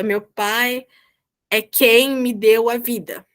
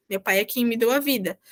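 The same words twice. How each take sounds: First: "é quem me deu a vida" dragged out slowly; slow example read. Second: Said in the usual way. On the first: Shown as a demonstration. (frase de exemplo lida devagar, com ênfase em "quem") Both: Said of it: "estou afirmando que meu pai é quem me deu a vida".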